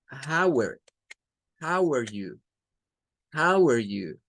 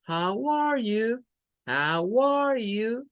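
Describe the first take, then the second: First: "how are you" run together, "are" reduced to a short "er", with a falling end; linked American how are you. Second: "How are you?" slow, every word said separately, rising at the end; full careful how are you. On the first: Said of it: "making a sound like". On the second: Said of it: "The first one is the most common, is to say". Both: Shown as a demonstration.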